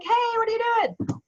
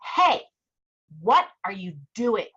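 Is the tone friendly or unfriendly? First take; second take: friendly; unfriendly. First: It sounds warm and friendly. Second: It sounds cold and unfriendly.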